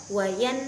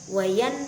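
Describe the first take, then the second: Both takes have the same delivery.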